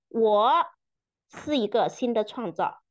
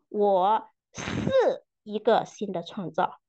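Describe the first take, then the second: First: The stress falls on the word 我. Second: The stress falls on the word 是. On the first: "强调每一个词" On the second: "强调每一个词"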